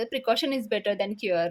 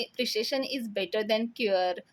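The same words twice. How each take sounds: First: Said in the usual way. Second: Botched English proverb, with "प्रिसिशन" for the first word; mispronounced English. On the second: A narrator's reading. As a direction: say "प्रिसिशन" for precaution, slowly. ("प्रिसिशन" असा चुकीचा उच्चार) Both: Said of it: "म्हणजे त्यांना म्हणायचं".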